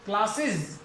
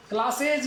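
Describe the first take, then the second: First: क्लासेज ending in iz, klasiz; क्लासेज with a short iz at the end; correct pronunciation. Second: क्लासेज with a full e and j, klasej; the wrong reading, क्लासेज ending in ej. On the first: Teacher gives the correct reading to the class. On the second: Teacher marks this reading as wrong. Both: Shown as a demonstration. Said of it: "क्लासेज नहीं".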